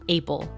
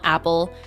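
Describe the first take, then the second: First: The first vowel is not an 'ah' sound. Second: The first vowel is an open 'ah' sound. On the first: The speaker calls it wrong. "rather than apple" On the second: The speaker calls it right. "apple is an ah sound"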